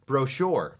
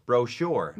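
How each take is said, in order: Both takes have the same delivery.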